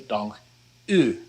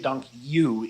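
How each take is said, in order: First: The final vowel differs from English 'oo' and 'you'. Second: The final vowel sounds like English 'you'. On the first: The speaker calls it right. "You want to say dank u" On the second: The speaker calls it wrong. "you don't want to say dank you either"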